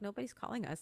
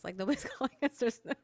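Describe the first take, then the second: First: Said in the usual way. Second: Laughing through it, a bit louder. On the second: Retold or imitated. Retelling friends' silence to the host, laughing. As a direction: laugh as you say it.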